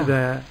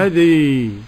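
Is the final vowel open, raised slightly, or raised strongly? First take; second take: open; raised strongly. First: The final vowel is an open a sound. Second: The final vowel leans strongly toward an i sound. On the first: "أما الفتح فهو المعروف" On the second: "الإمالة بقى الكبرى"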